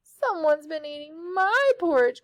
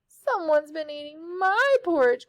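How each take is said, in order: First: It is said in a high crying voice. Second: It is said in a high crying voice.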